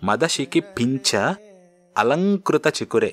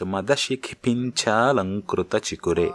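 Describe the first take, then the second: First: Pincha and alankrita are said as separate words. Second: Pincha and alankrita merge into one long vowel. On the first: "కలపకుండా కూడా పలకొచ్చు" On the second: "మీరు కలిపి పలకొచ్చు"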